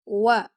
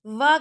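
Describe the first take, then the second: First: وا with round lips, like wa; rounded waw. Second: وا with teeth on the lip, like va; wrong waw. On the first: Teacher showing students the correct letter, وا as wa. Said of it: "آپ کے lips گول ہونے چاہیے". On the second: Teacher showing students the mistake, وا made like va. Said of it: "وا کر کے نہیں پڑھتے". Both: Shown as a demonstration.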